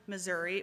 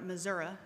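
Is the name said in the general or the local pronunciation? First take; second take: general; local. First: The name uses the general, outsider pronunciation. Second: The name uses the local, native pronunciation. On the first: This is how people elsewhere say it. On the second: This is how people from the state say it.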